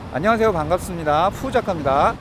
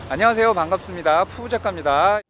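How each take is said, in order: First: Low traffic rumble is clearly heard behind the voice. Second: Low traffic rumble is cut down behind the voice. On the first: "현재는 인터널 마이크입니다" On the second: "이번에는 삐텐의 로우컷 필터까지 켜서 수음을 해보고 있습니다"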